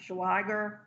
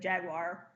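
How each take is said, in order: First: The name is said with an extra 'wa' sound. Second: The name is said like the animal. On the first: This is how the news reporters said it. "I think they pronounced it" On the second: This is how the speaker read it. "but I said"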